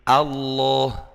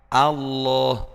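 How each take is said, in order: No difference in how they are said.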